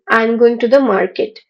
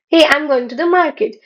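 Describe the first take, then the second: First: It is said in a sad tone. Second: It is said in a happy tone.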